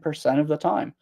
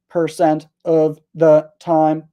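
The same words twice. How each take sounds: First: The words run together smoothly as one. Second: Each word is said separately and clearly. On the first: "That's connected speech. I'm saying percent of the time" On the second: "I'm not saying percent of the time"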